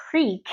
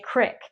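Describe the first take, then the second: First: "creek" said plainly with a long ee. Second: "crick" with a short i, Midwest style; Midwestern crick. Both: Shown as a demonstration. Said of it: "instead of saying creek, they say crick".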